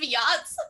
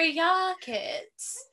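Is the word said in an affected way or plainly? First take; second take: plain; affected. First: The word is said with an ordinary pronunciation. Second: The word is said with an affected, mock-fancy pronunciation. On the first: This is the normal way to say the word. "instead of yachts" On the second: It mimics people pretending to be classy. "I'm like, on your yachts"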